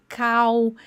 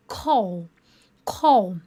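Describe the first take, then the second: First: "call" with a clear l, as learners said it; old pronunciation. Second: "call" said like "kow", the l dark and vowel-like; pronunciation demo. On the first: Teacher imitating the student's old way of saying "call", plainly. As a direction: pronounce "call" the way students used to. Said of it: "se você falava call". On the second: Teacher showing students how "call" really sounds, carefully. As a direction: end "call" in an open w sound. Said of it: "Olha a pronúncia". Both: Shown as a demonstration.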